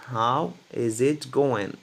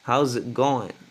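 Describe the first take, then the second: First: It is spoken carefully, with every word said fully. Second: It is spoken fast, with words run together.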